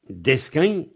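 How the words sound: The word ends in a nasal diphthong. "descagne en vente"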